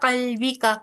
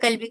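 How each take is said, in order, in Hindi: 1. शब्द एक छोटे स्वर पर समाप्त होता है। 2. शब्द एक बिना स्वर वाले व्यंजन पर समाप्त होता है। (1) "लेकिन आपने कहा" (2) "रुकी ना आप यहाँ पे"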